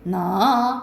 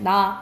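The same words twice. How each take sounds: First: The syllable starts low and rises to high. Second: The syllable is said on a low level pitch. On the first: "낮았다가 높아지는 거야" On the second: "그냥 나 있으면 나 이렇게 하는 거고"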